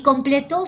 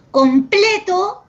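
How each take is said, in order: First: "completó" with the last syllable TÓ stressed; stress on final TO. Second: "Completo" with the middle syllable PLE punched high and loud; slow "Completo", leaning hard on PLE; stress on PLE. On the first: Teacher showing the changed tonic syllable, stress on final TÓ. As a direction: land the accent of "completó" on its ending, TÓ. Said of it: "su sílaba tónica es to". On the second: Teacher contrasting two words for a student, stress on PLE. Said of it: "su sílaba tónica es ple". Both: Shown as a demonstration.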